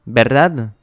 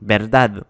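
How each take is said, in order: First: Said in the usual way. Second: "Verdad" with the weight on DAD; lower-pitched ver-DAD for "Verdad"; stress on last syllable. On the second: Shown as a demonstration. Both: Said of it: "l'accent sur la dernière syllabe".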